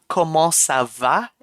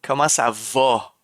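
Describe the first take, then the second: First: 'va' with an open front 'ah'; France pronunciation. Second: 'va' rounded back to 'vo'; Quebec pronunciation. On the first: Streamer contrasts accents for chat, 'va' said with open 'ah'. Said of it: "in France". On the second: Streamer contrasts accents for chat, 'va' said as 'vo'. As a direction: lower pitch, 'va' sounding like 'vaw'. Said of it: "in Quebec". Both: Shown as a demonstration.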